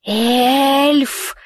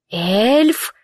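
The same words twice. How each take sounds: First: A creature hissing "Эльф!" sharply; hissed. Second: "Эльф!" asked with a rising tune; questioning. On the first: Filthy creature hisses at the fallen woman, hissing. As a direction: spit the word "Эльф!" out like a hiss. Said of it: "прошипело существо". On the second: The vagrant bends over her again, asking, rising question. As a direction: turn "Эльф!" into a puzzled question, rising at the end. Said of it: "В голосе его звучал вопрос". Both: A narrator's reading.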